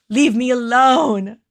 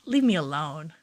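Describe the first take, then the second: First: Louder, slow, drawn-out "Leave me alone"; hammed-up whine at her watching partner; mock whiny plea. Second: Said in the usual way. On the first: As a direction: stretch it out as a playful protest. Teasing Peter, says it twice.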